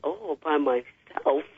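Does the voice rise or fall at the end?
fall. The voice falls at the end, like a statement.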